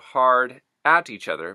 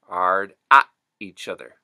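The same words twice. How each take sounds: First: The H and the final T are pronounced. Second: The H and the final T are dropped.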